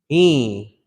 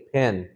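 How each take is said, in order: First: The vowel is nasalized with no n consonant. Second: The vowel ends with a full n consonant. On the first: The speaker calls it right. "it's supposed to be like this" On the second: The speaker calls it wrong. "a lot of people mispronounce because they say pin"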